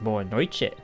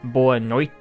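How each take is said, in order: First: It is pronounced the native Portuguese way. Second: It is pronounced as English spelling suggests. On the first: The speaker calls it right. "it's actually pronounced boa noite" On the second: The speaker calls it wrong. "it looks like boa noite"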